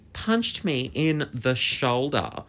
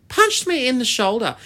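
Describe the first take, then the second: First: Slow, drawn-out account of the punch; slow reveal. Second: Much higher, louder incredulous exclamation; outraged disbelief. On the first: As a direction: stretch the words out for suspense. First telling of the punch. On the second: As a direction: exclaim it high and loud, outraged. Repeats the punch in outrage. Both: Real, not acted.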